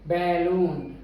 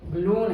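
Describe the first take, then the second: First: The stress is on the first syllable. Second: The stress is on the second syllable. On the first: The speaker calls it wrong. "Balloon गलत है" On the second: The speaker calls it right. "लून पे stress है, बै पे stress नहीं"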